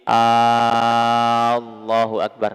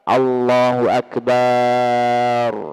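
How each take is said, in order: First: The opening vowel of the phrase is stretched long. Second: The b sound in the last word is stretched long. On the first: "tidak terlalu memanjangkan hamzah" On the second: "tidak boleh memanjangkan ba pada lafaz akbar"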